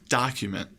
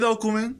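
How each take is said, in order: First: The first vowel is an open, unrounded 'ah'. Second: The first vowel is a rounded Spanish-like 'oh'. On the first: The speaker calls it right. "change that O to an A" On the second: The speaker calls it wrong. "These O pronunciations tend to come out like O, O in Spanish"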